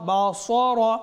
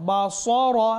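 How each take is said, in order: The two takes are said the same way.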